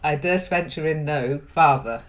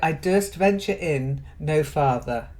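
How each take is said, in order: First: 'No' and 'father' are split apart. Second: 'No father' is said as one group. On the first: The speaker calls it wrong. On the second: The speaker calls it right. "So no father goes together"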